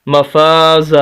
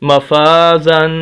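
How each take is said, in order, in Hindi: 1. यह शब्द लंबी 'आ' की आवाज़ पर ख़त्म होता है। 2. यह शब्द नाक वाली 'न' की आवाज़ पर ख़त्म होता है। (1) "वक्फ की हालत में ये लफ्ज़ पढ़ा जाएगा मफाजा" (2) "यहाँ पर गुन्ना भी करना है, नाक में आवाज़ ले जानी है"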